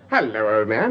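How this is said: It is said in a salesy advert manner.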